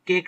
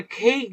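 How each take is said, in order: First: "কেক" with a plain k, no puff of air; unaspirated k. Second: "খেক" opening on an airy Bengali খ; aspirated kh. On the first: Teacher contrasting English pronunciation for students, unaspirated k. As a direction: say "কেক" with Bengali ক at the start. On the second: Teacher showing how English cake sounds, aspirated kh. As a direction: puff air into the first consonant of "খেক". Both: Shown as a demonstration. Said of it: "কেক না বলে খেক বলি".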